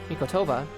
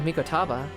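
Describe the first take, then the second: First: The third syllable has an 'oh' vowel. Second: The third syllable has an 'ah' vowel. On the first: The speaker calls it right. "I'm gonna have to remember that" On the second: The speaker calls it wrong. "I've been saying Mikotaba this whole time"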